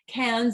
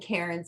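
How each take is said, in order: First: The R sound is dropped from the word. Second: The R sound is pronounced in the word. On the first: This is how locals say it. The speaker calls it right. "definitely closer to correct" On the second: This is how Canadians say it. The speaker calls it wrong. "They don't pronounce that R the same way that uh, that we do"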